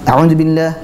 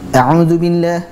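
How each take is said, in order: First: The long vowel is cut short. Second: The long vowel is held its full length. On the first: The speaker calls it wrong. "dia dibaca pendek saja" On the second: The speaker calls it right. "tetap panjang walaupun cepat"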